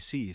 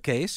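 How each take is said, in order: First: The vowel sounds like the vowel in 'cease'. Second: The vowel sounds like the vowel in 'case'. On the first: This is how people in the States say it. "everyone in the States calls me Cease" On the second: This is how the family at home says it. "my mother calls me Case"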